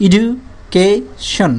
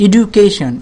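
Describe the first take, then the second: First: education very slowly as এডু... কে... শন; long gaps between এডু, কে and শন; divided into parts. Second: Said in the usual way. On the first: Shown as a demonstration. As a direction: pull education apart into three chunks. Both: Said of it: "অংশে ভাগ করা যায়".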